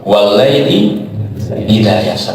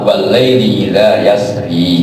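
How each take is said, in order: First: The last word ends on the consonant r. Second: The last word ends with an added i vowel. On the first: "tapi yaknya hilang" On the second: "Isbatil ya waqfan"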